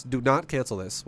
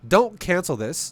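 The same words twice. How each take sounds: First: "not" punched out clearly; stress on NOT. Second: "Don't" said slow and firm; stress on DON'T. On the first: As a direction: split it into "Do not", hit "not". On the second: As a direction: lean hard on "Don't", slowly. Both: Shown as a demonstration.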